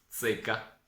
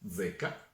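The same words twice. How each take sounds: First: The z is voiceless, like ts. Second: The z is voiced, like dz. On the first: "la Z di tsunami" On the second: "la Z di Godzilla"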